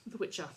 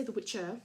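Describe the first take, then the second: First: "The Witcher" ending in an open ah; Australian dropped R. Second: "the Witcher" ending in a clear er; sounded final R. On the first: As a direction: say "The Witcher" Aussie-style, no final R. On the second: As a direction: say "the Witcher" with the R pronounced at the end. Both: Shown as a demonstration. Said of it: "we don't say the Witcher".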